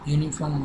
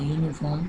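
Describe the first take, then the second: First: The word starts with a consonant y sound. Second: The word starts with a plain vowel sound. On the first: The speaker calls it right. "ઉચ્ચાર થાય છે, એટલે કે ય એ વ્યંજન છે" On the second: The speaker calls it wrong. "ઉચ્ચાર થતો નથી"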